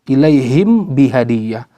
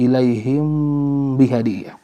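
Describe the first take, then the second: First: The m is pronounced fully and separately. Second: The m is softened, halfway between clear and merged. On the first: The speaker calls it wrong. "tidak dibaca izhar" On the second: The speaker calls it right.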